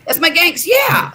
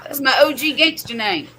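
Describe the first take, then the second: First: Loud proud exclaim; excited shout. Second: Said in the usual way. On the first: Real, not acted. Proudly declaring gangster name.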